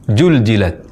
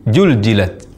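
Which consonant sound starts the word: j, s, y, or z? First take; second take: j; j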